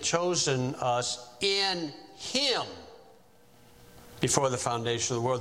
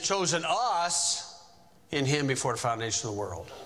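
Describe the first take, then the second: First: The word "him" carries the stress. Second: The word "us" carries the stress. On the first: The focus is on the one in whom they are chosen. The speaker calls it right. "The accent should be on Jesus Christ" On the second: The focus is on the people chosen. The speaker calls it wrong. "So that makes the us accented"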